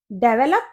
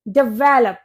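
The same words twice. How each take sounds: First: डेवलप stressed on the first syllable, DEV-uh-lup; common mispronunciation. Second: डेवलप as dih-VEL-up, second syllable stressed; correct pronunciation. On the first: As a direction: say डेवलप as DAY-vuh-lup, front-stressed. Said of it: "no, ये होता है डेवलप". (डेवलप का आम गलत उच्चारण, 'डे' पर ज़ोर) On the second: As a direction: hit the middle of डेवलप, di-VEL-up. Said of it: "ये होता है डेवलप". (डेवलप में 'वे' पर ज़ोर, 'डि-वे-लप') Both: Shown as a demonstration.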